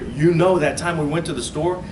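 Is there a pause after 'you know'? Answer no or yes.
no. It runs on without a pause after 'you know'. It asks whether the listener remembers that time. "I hear it"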